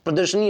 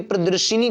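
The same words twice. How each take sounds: First: प्रदर्शनी with no i after the sh; correct form. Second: प्रदर्शिनी with an extra i after the sh; wrong form. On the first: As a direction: say प्रदर्शनी with "sha-nee" at the end. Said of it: "होती है". (सही रूप प्रदर्शनी, "श" में इ नहीं) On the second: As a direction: say प्रदर्शिनी with "shi" before "ni". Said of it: "कोई शब्द नहीं होता". (गलत रूप प्रदर्शिनी, "शि" के साथ) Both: Shown as a demonstration.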